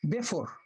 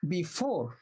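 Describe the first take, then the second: First: The stress is on the first syllable. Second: The stress is on the second syllable. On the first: The speaker calls it wrong. "not before" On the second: The speaker calls it right. "you put stress on the on the four"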